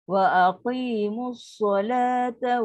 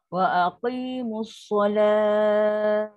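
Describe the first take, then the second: First: The phrase runs on, with the vowel kept short. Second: The phrase stops, with the vowel held long. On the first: The reciter carries on into the next words. "kat sini tak boleh baca panjang macam tadi. Dia jadi masih biasa dua akad je" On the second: The reciter stops at this point. "Tapi sebab kita nak tunjukkan, nak baca panjang"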